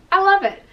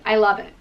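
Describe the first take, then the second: First: Excited squeal. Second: Said in the usual way. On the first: Shown as a demonstration.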